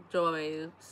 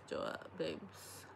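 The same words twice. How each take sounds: First: Said in the usual way. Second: Breathy whispered echo, slow. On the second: Real, not acted. Vlogger to viewers about having no boyfriend, slow whisper. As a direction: say it again under the breath, almost silent.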